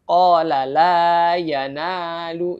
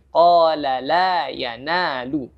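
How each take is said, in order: First: Qala la yanalu with the long vowels cut short; rushed qala la yanalu, madd too short; wrong demo, vowels clipped; wrong length. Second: Slow qala la yanalu with full two-beat vowels; correct recitation. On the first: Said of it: "bukan qala la yanalu". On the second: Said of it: "lebih dikurangi". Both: Shown as a demonstration.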